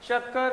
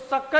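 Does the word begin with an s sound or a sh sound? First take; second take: sh; s. First: The first sound is a sh. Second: The first sound is a plain s. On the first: The speaker calls it right. "तो ये तो हो गया शक्कर" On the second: The speaker calls it wrong. "नहीं बोलना आपको"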